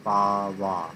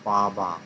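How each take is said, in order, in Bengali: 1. মাঝের ব্যঞ্জনটি w ধ্বনি। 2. মাঝের ব্যঞ্জনটি b ধ্বনি। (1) "হিন্দিভাষীরা ঠিকই বলে" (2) "নট পাবা"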